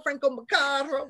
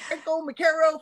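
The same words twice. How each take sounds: First: Macaro said "muh-CAR-oh"; Italian-style surname. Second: Macaro said "muh-CARE-oh"; stressed middle of Macaro rhymes with "care"; Anglicized surname. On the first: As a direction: open "ah" in the middle of Macaro. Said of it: "That's how the Italians would say it". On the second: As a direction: say Macaro with an American "care" vowel. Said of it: "whatever you want". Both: Shown as a demonstration.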